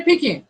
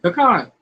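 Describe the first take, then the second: First: "pecan" said pee-CAN, higher. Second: "Pecan" said puh-KAHN. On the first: Retold or imitated. Host quoting how other people say it, pee-CAN. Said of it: "I've heard people say pecan". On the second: Shown as a demonstration. Host answering how to pronounce it, puh-KAHN. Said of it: "how do you pronounce it".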